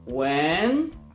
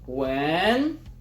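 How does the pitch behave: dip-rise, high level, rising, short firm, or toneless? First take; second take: rising; rising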